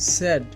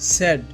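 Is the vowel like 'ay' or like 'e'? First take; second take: e; e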